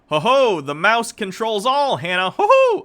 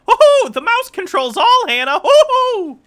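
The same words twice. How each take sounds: First: It is said in the speaker's normal voice. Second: It is said in a squeaky cartoon mouse voice.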